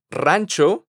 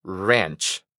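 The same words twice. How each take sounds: First: Rancho with a rolled Spanish R. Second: Ranch with an English R and short vowel, lower. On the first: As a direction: say rancho the Spanish way, trilled R and open a. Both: Shown as a demonstration. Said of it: "la diferencia en la pronunciación de estas dos palabras".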